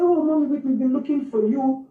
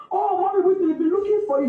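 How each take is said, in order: First: Lightly voiced staff member, easygoing and unhurried; calm, casual staff. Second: Staff voice pitched higher, light and easy; calm, casual staff. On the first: Staff member calling out to Whitney's mother, casually calm. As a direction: say it as if nothing is wrong. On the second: Retold or imitated. School staff greeting the worried mother, calm and casual. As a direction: relay the news breezily, no alarm. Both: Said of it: "He was so calm and casual".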